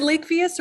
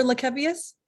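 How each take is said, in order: First: "Lakevius" with a long A in the first syllable; first syllable like LAKE. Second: "Lakevius" with a short E in a stressed second syllable; KEV in the middle. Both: Shown as a demonstration. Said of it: "is it Lakevius or Lakevius".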